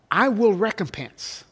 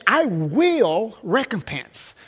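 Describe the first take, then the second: First: Said in the usual way. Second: "will" leaned on, slow and deliberate; slow, weighty "I will recompense" with "will" stressed. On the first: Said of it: "is emphatic". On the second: Shown as a demonstration. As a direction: draw out each word and land hard on "will". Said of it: "the word "will" is emphatic".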